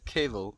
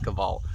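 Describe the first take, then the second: First: The name has a non-Afrikaans pronunciation. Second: The name has an Afrikaans pronunciation. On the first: This is how the name is supposed to be said. The speaker calls it right. "I think his name is said Keval" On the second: This is how the speaker would naturally say it. The speaker calls it wrong. "it's like the Afrikaans pronunciation of it"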